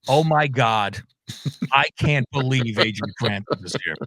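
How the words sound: The voice sounds scornful and annoyed. The person is unhappy he is here. "it would be said in a very different tone"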